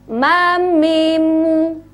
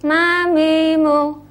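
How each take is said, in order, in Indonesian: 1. Setiap vokal diucapkan penuh dan jelas. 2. Vokalnya kendur dan tidak jelas.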